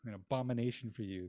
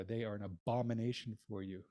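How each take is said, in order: First: Abomination pressed home a second time; repeated stress on abomination. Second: Abomination leaned on firmly; stress on abomination. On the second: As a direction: dwell on the word abomination. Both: Shown as a demonstration. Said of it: "Why do I keep emphasizing the word abomination?".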